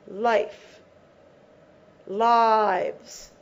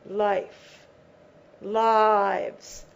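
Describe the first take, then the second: No difference in how they are said.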